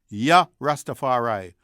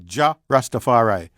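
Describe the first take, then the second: First: The first word starts with a Y sound. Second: The first word starts with a hard J sound. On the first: "pronunciation options being hard J or Y" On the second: "that with a hard J"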